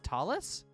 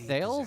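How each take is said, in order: First: The name is pronounced like Talus. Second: The name is pronounced like Thales. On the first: The speaker calls it right. "his name is Talus?" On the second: The speaker calls it wrong. "I've been mentally pronouncing that wrong this entire time"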